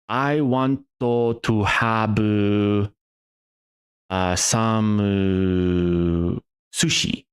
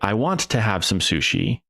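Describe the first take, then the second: First: It is spoken in a Japanese accent, with hesitations. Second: It is spoken smoothly in a native English accent. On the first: This is how a Japanese speaker would answer. "my Japanese accent in English is absolutely horrible" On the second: A Japanese speaker would not answer this way. "They wouldn't say"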